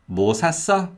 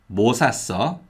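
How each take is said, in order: First: High, stressed 샀어 after unstressed 뭐; stress on the verb. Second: 뭐 carries the question's stress. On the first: Teacher repeating the did-you-buy question, stress on 샀어. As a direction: make 샀어 carry the question. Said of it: "if the stress is on the verb". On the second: Teacher repeating the what-did-you-buy question, stress on 뭐. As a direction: stress 뭐 rather than the verb 샀어. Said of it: "if the stress is on 뭐". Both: Shown as a demonstration.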